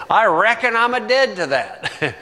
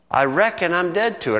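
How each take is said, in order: First: Mild hammed-up Southern accent, higher; Southern twang. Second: Said in the usual way. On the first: Shown as a demonstration. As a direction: say it like a Southern preacher. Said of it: "throw in the Southern twang".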